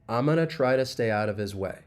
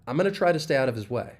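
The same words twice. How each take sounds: First: The sentence is spoken slowly. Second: The sentence is spoken faster. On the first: "let's do it slowly one time" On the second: "if we speed it up a little bit"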